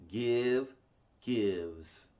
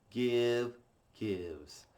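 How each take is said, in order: No difference in how they are said.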